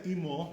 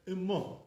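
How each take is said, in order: First: Imo with a tight EE first vowel; high chirik. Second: Imo with a short lax vowel, ih-mo; lowered chirik. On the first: Teacher showing what the rabbi avoided, imo with high ee. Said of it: "the rabbi didn't say imo". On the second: Teacher showing how the rabbi said it, imo lowered. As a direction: say imo with first vowel toward eh. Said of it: "Not so high". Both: Shown as a demonstration.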